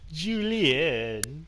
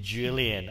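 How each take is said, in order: First: The name is said in a French accent. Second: The name is said in a plain English accent. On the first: "I have to go Julian, my French accent" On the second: "I don't know if I can just say Julian"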